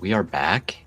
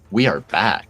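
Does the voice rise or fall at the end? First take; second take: rise; fall. First: The voice rises at the end, like a question. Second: The voice falls at the end, like a statement.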